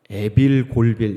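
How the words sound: The syllables are run together in pairs. The speaker calls it wrong. "이렇게 가면 안 돼요"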